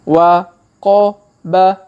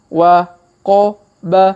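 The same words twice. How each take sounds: Both takes have the same delivery.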